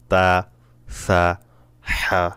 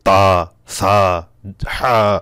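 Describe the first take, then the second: First: The letters are said softly with flowing breath. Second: The letters are said with a strong, forceful push. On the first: The speaker calls it right. "বেশি না নরম" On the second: The speaker calls it wrong. "জোর আওয়াজে"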